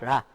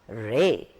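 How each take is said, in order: First: The vowel stays on one steady sound. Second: The vowel glides from one sound to another. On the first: The speaker calls it wrong. "It's not one sound, it's not ra" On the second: The speaker calls it right. "it's re. There is a movement"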